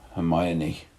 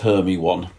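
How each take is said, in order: First: The name has its usual spoken pronunciation. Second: The name is sounded out letter by letter. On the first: "which is how she read Hermione" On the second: "I mispronounce so many words... a feature that I passed on to my daughter"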